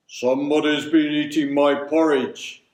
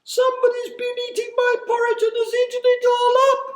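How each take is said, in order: First: Loud, far-from-natural big bear voice; great deep bear voice. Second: Put-on very high, loud, fast baby bear squeal; high piping bear voice. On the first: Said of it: "he said in a great deep voice". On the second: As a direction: pipe it up like a tiny upset bear cub. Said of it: "he cried in his high piping voice". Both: A narrator's reading.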